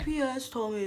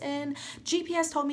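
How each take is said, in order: First: The words are spoken in a slurred way. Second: The words are spoken clearly and normally. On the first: "She sounded a little bit more like this" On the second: "she didn't sound like that"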